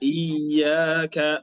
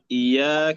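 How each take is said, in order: First: The ya sound is doubled and held. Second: The ya sound is short and single. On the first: The speaker calls it right. "الصحيح أن نقرأ بتشديد الياء" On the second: The speaker calls it wrong. "ألا نقرأ بتخفيف الياء"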